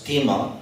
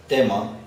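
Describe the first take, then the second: No difference in how they are said.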